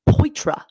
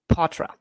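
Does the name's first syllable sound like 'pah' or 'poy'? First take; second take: poy; pah. First: The first syllable sounds like 'poy'. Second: The first syllable sounds like 'pah'. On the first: The speaker calls it wrong. "because it looks like Poitra" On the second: The speaker calls it right. "it's pronounced Patra"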